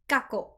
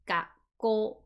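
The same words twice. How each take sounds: First: The word is said without a pause in the middle. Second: The word has a short pause in the middle. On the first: The speaker calls it wrong. "It is not gakko. It's not" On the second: The speaker calls it right. "The pause is very, very important"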